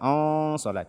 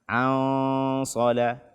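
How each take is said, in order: First: The opening ain vowel sounds heavy and dark. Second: The opening ain vowel sounds light and thin. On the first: The speaker calls it wrong. "Jangan dibaca on on sola on sola, tidak" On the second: The speaker calls it right. "Tidak dibaca tebal karena ain dia huruf tipis"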